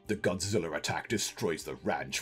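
It is read in a dramatic movie-trailer voice.

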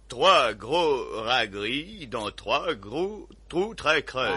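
It is said with an English-sounding accent.

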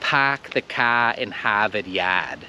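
The R sounds are dropped, replaced by long A. "ktoś z Bostonu by powiedział"

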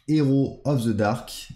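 It is pronounced with a French accent. "si on le dit évidemment en français"

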